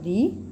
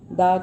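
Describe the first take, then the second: First: The word ends in a long 'ee' vowel. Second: The word ends in a short 'uh' vowel. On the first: It comes before a vowel sound. "दी बाउल sound से पहले" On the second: It comes before a consonant sound. "द consonant से पहले"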